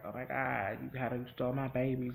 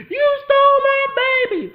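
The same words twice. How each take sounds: First: Said in the usual way. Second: Screeching, much higher and louder, slower; mock shrieking dad. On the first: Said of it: "they're like". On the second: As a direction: squeal it like a hysterical hillbilly dad. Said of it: "And the dad was like".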